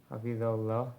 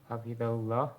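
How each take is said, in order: The two takes are said the same way.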